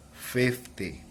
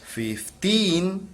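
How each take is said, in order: First: "fifty" softer, falling; "fifty" stressed first, falling; stress at the start. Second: Put-on "Fifteen" said higher, rising on "teen"; "Fifteen" rising at its end; stress at the end. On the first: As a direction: let "fifty" fall after "fif". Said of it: "is decreases". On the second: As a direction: lift "teen" up. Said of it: "rise of voice". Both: Shown as a demonstration.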